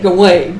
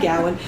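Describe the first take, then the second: First: The name is said the common way. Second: The name is said the less common way. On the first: This is how most people say it. "most people say Gawain" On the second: This is how one former teacher said it. "I had a Brit Lit professor who pronounced it Gowan"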